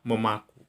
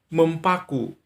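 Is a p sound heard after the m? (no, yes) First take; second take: no; yes. First: The word has no p sound after the m. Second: The word keeps a p sound after the m. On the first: The speaker calls it right. "yang benar adalah memaku" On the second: The speaker calls it wrong. "Mempaku itu salah"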